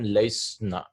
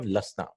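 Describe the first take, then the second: First: A 'y' sound follows the first vowel. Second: No 'y' sound follows the first vowel. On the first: The speaker calls it wrong. "we cannot pronounce that" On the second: The speaker calls it right. "they dropped the ya"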